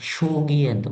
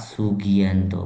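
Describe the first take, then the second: First: The name begins with a sh sound. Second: The name begins with a plain s sound. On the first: The speaker calls it wrong. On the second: The speaker calls it right.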